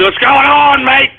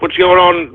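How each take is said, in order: First: Higher, playful Australian greeting; mock Australian accent. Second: Said in the usual way. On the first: Host greeting his boys in Australia, mock Australian accent. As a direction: hail them in a put-on Australian accent.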